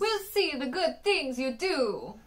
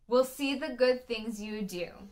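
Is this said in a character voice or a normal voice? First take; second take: character voice; normal voice. First: It is said in a put-on, funny character voice. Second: It is said in an ordinary, natural voice.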